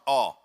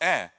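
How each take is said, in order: First: The vowel sounds thick and heavy. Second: The vowel sounds thin and light. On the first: The speaker calls it wrong. "I arched up my tongue" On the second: The speaker calls it right. "No, it's ah"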